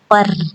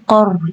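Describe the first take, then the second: First: The r is pronounced light and thin. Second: The r is pronounced heavy and thick. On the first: The speaker calls it wrong. "jangan qar ya, bukan qar ya. Jadi huruf ro-nya bukan tipis tapi tebal" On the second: The speaker calls it right. "Jadi cara bacanya qor ya"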